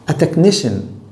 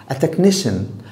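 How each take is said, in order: Both takes have the same delivery.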